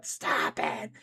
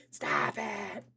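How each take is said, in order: First: Said in the usual way. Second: Much lower mock voice; deep voice. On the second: Streamer answering chat in a mock deep voice. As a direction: drop way down for a silly deep stop it.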